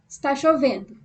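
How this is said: It is said as a flat statement.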